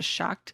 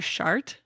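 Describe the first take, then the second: First: The word is said with no R sound. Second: The word is said with an R sound. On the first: This is how it is said in some parts of Ireland. "In some places in Ireland, it's pronounced closer to shocked" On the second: This is how it is said in Northern Ireland. "in like Northern Ireland, it's pronounced closer to shart with an R"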